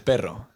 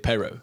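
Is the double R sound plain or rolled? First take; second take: rolled; plain. First: The double R is rolled with a trill. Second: The double R is a plain English-like R. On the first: The speaker calls it right. "The proper way to say it is perro" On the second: The speaker calls it wrong. "we say perro, which is kind of, I mean, it's kind of like an English speaking person would say it"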